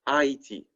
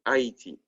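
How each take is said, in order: Both takes have the same delivery.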